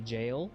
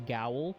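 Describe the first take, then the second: First: It begins with a j sound. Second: It begins with a hard g sound. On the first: The speaker calls it right. "but you gotta say jail" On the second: The speaker calls it wrong. "you want to say gowl"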